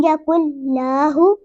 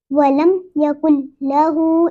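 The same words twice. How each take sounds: First: लहू with la wrongly stretched, hoo short; wrong vowel length. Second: Short la, held hoo in लहू; correct vowel length. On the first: Teacher shows what not to read, misplaced length in लहू. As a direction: drag the la in यकुल लहू. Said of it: "ऐसे नहीं पढ़ेंगे". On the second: Teacher models the right reading, long-ending लहू. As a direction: keep la brief and stretch the end of लहू. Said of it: "इस तरह पढ़ेंगे". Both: Shown as a demonstration.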